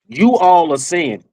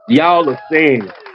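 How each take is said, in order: First: You and all are said as two full words. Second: You and all are squeezed into one syllable. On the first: The speaker calls it wrong. "we say you all" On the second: The speaker calls it right. "We say y'all"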